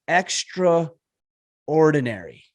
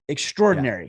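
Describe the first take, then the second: First: The word is said slowly. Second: The word is said quickly.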